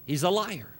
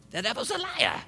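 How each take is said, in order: First: Said in the usual way. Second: High-pitched Pentecostal preacher's cry; Pentecostal accent. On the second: Shown as a demonstration. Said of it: "with a little Pentecostal accent".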